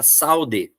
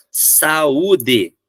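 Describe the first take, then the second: First: "saude" as SAU-de; vowels glued. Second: "Saúde" as sa-Ú-de; stressed u apart from the a in "Saúde"; vowels separated. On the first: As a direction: read "saude" in two syllables, u sliding off the a. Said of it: "se não tiver acento". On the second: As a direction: read "Saúde" in three clear syllables. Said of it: "Eu só vou ler separado o U". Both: Shown as a demonstration.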